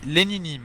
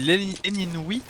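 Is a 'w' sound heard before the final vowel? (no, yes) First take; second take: no; yes. First: The name ends with a 'nee' sound. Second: The name ends with a 'wee' sound. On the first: The speaker says it this way. "Moi, je dis Lénini" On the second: Another person says it this way. "tu dis Léninoui?"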